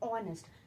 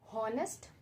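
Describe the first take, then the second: First: The word starts with a vowel, no h sound. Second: The word starts with an audible h sound. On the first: The speaker calls it right. "यहाँ पे ऑनेस्ट में हम क्या बोल रहे हैं?" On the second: The speaker calls it wrong. "हम हॉनेस्ट नहीं बोलते"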